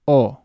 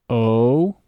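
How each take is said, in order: First: Spanish "O" short and pure; "O" as a short clean Spanish oh; Spanish vowel O. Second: English "O" rounded, gliding into oo; "O" the English way with a rounded glide; English vowel O. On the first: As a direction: clip the Spanish "O". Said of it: "followed immediately by Spanish". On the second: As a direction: stretch the English "O". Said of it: "say the vowel in English". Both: Shown as a demonstration.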